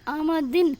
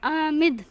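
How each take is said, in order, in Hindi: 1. शब्द का अंत एक पूरे -in अक्षर से होता है। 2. शब्द एक साइलेंट 'd' व्यंजन पर खत्म होता है।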